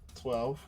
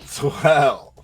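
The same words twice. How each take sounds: First: It is said hesitantly, without confidence. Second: It is said firmly, with confidence.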